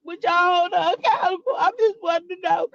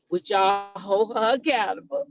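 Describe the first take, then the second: First: Higher, put-on pleading voice; mock whiny plea. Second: Mock plea. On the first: Vlogger mimics a streamer's plea to chat in a higher whine. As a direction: whine it in a mocking falsetto. Mocking his plea again. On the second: Vlogger quotes the streamer's question to chat, low mocking. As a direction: ask it as him, lightly mocking. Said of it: "he said".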